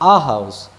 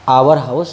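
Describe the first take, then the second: First: 'Our' is a single short syllable, like 'ah'. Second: 'Our' is stretched into two syllables, like 'hour'. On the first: The speaker calls it right. "आ house या फिर अवर house" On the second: The speaker calls it wrong. "आवर house नहीं कहना है"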